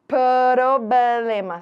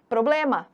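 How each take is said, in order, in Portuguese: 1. Os sons consonantais são separados e exagerados. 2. Os sons consonantais se juntam em velocidade normal. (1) "Claro que ninguém fala assim, né, Brasil? Eu tô falando assim para você perceber" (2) "Mas todo mundo fala problema"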